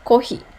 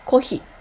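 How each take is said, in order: No difference in how they are said.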